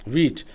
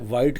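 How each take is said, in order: First: The vowel sounds like 'ee'. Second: The vowel sounds like 'eye'. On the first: This is the usual way people say it. "Pronunciation इसकी normally जो हम लेते हैं वो वीट की लेते हैं" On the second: This follows the spelling but is less common. "वाइट कह सकते हैं"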